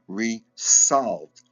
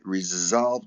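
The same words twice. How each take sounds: First: The middle consonant is a hissing S sound. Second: The middle consonant is a buzzing Z sound. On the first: "as different from" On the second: "with a Z sound"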